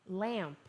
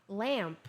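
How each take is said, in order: Both takes have the same delivery.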